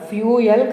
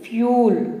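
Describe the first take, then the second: First: The word is said with two syllables. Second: The word is said as one syllable. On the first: The speaker calls it wrong. "ఫ్యూయల్ కాదు దాన్ని పలకాల్సింది" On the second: The speaker calls it right. "So ఫ్యూల్ అని పలకాలి"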